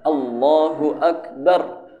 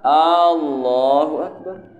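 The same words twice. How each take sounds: First: The voice falls at the end, like a statement. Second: The voice rises at the end, like a question. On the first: It declares that God is great. The speaker calls it right. "Jadi harus Allahu Akbar" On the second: It asks whether God is great. The speaker calls it wrong. "Yang salah, ... Apakah Allah Maha Besar?"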